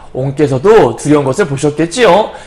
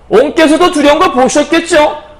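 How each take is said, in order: First: The question is asked calmly and politely. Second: The question is asked with irritated, heightened emotion.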